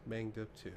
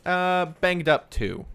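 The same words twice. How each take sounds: First: Much softer repeat under the breath; quiet echo. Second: Drawn out, pitched up and louder; slow announcement. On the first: Real, not acted. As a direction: echo it softly to yourself. Player echoing the tier. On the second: Shown as a demonstration. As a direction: announce the new tier slowly and loudly. GM announcing new injury tier.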